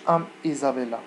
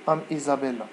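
First: The two words are cut apart from each other. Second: The two words run together as one word. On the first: The speaker calls it wrong. "ما تقولش ام ايزابيلا" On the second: The speaker calls it right. "تقول ام ايزابيلا"

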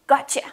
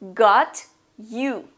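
First: The words blend into one reduced word. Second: The two words are pronounced fully and separately.

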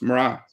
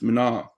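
First: The consonant after the m is an r. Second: The consonant after the m is an n. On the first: This is the northern dialect form. "In Ulster Irish, you pronounce that N as an R" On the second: This is the southern dialect form. "which is the Munster Irish"

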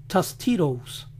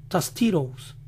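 No difference in how they are said.

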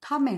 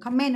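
First: The stress is on the first syllable. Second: The stress is on the second syllable. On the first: The speaker calls it right. "cái từ này là comment, âm tiết số 1 nhá" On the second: The speaker calls it wrong. "không phải comment ạ, comment là tiếng Việt mình nói thôi"

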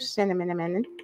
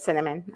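First: The word is pronounced in a playful, distorted way. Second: The word is pronounced in the ordinary way. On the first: It is a joking habit. The speaker calls it wrong. "I always say it like that. I'm just being silly" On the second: It is the proper pronunciation. The speaker calls it right. "I know it's cinnamon"

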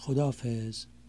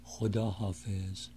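First: It is said fast with the words run together. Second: It is said slowly with both words complete.

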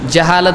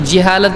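First: Its vowels match the Arabic form jahaala. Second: Its vowels differ from the Arabic form jahaala. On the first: The speaker calls it right. "جہالت صحیح ہے" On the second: The speaker calls it wrong. "تو جہالت غلط ہے"

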